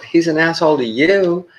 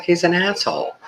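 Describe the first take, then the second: First: High retort landing hard on YOU; stress on YOU. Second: High-pitched mimicry of the wife; imitating wife. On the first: Retold or imitated. Husband correcting wife about the surgeon, stress on YOU. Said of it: "And I'm like". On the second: Wife judging the surgeon, high-pitched imitation. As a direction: give the wife's blunt verdict in a much higher voice. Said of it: "She's like".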